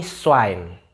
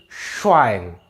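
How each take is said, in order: First: "Schwein" slowly as swain, thin s; s onset. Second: "Schwein" slowly, with a long sh; sh onset. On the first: Teacher contrasting two spellings, plain s version. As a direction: open "Schwein" on s, never sh. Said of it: "Beda kan?". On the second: Teacher contrasting two spellings, long sh version. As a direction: stretch the sh that opens "Schwein". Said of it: "cuma beda". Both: Shown as a demonstration.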